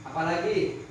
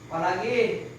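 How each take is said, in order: No difference in how they are said.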